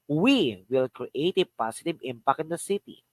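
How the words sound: The word "we" carries the main stress. "The first is we"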